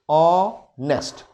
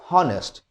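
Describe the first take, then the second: First: The word begins with a vowel, h silent. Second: The word begins with an audible h sound. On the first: The speaker calls it right. "the consonant is being obsolete" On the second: The speaker calls it wrong. "It's not honest"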